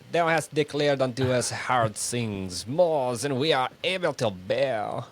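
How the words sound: It is read in a put-on French accent.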